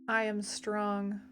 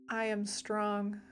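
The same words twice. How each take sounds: No difference in how they are said.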